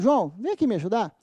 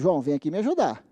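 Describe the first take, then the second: First: It sounds like a polite, asking request. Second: It sounds like gentle, recommending advice. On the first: The listener is being asked to help. "em tom de pedido" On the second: Helping is being recommended to the listener. "Em termos de conselho"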